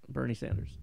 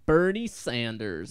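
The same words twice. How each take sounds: First: It is said at normal volume. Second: It is said loudly.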